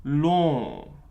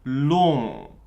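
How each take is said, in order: Both takes have the same delivery.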